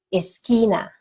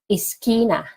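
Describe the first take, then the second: No difference in how they are said.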